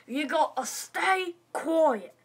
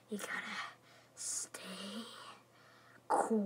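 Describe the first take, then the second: First: Slow, voiced, firm command; stern order. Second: Whispered, word by word with long pauses; hushed order. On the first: Principal orders class to be quiet. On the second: Acted. Principal repeats order in hushed voice.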